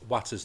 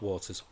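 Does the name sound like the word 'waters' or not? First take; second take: not; like it. First: The name does not sound like 'waters'. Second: The name sounds like the word 'waters'. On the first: The speaker calls it right. "it's Watters" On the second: The speaker calls it wrong. "not Waters"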